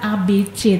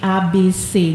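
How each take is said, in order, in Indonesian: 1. Huruf C dibaca dengan cara Indonesia modern. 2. Huruf C dibaca dengan cara ejaan lama. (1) "bukan A B C" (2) "tapi A B C. Jadi ada ejaan lama seperti itu"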